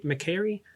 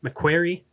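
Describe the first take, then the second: First: McQuarrie without the W, as "muh-KERRY"; trying out pronunciation. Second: McQuarrie with a clear W, as "muh-KWERRY"; chosen pronunciation. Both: Shown as a demonstration. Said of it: "I'm gonna say McQuarrie".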